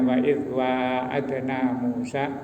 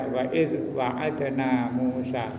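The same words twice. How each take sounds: First: The first vowel of wa'adna is drawn out long. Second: The first vowel of wa'adna is kept short. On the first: This is the commonly used reading. "Kita biasa membaca panjang" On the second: This is another accepted reading among the seven readings. "ada yang baca ... dibaca pendek"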